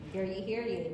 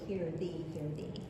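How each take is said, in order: First: The second word starts with a y sound. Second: The second word starts with a th sound. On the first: The speaker calls it wrong. "I always said hear ye, hear ye" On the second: The speaker calls it right. "but it's really hear thee, hear thee"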